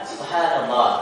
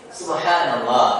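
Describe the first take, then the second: No difference in how they are said.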